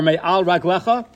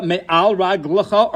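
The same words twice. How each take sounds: First: "raglecha" with a clear middle eh, rag-LEH-kha; plural raglecha. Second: "raglecha" with a reduced middle vowel, rag-luh-kha; singular raglecha. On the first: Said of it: "raglecha by Moshe is spelled with a yud". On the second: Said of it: "raglecha by Yoshua is spelled without a yud". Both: Shown as a demonstration.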